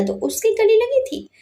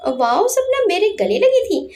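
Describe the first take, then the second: First: Said in the usual way. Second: High, excited inner gush, rising on wow and landing on लगी; thrilled under his breath that Sapna hugged him; delighted to himself. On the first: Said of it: "अपने मन में खुश होकर बोला". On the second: Acted. Anurag thinks happily about Sapna's hug, gleefully excited. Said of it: "मन में खुश होकर बोला".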